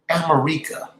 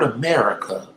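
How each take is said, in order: First: It ends like the Rica in Costa Rica. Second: It is said the usual English way.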